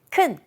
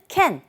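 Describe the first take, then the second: First: The word has a weak reduced vowel. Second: The word has a full a vowel. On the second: "여기서는 can, 큰, con 이런 식으로 세 가지 방법으로"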